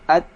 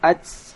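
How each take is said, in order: First: The t ends with a slight hiss. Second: The t ends with a strong hiss. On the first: The speaker calls it right. "sedikit aja desisnya" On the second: The speaker calls it wrong. "tidak perlu dibaca sampai"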